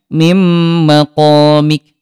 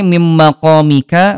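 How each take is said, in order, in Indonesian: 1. Kata terakhir berakhir pada konsonan mati. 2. Kata terakhir berakhir dengan vokal pendek. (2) "bertanda baca fathah dhammah maupun kasrah"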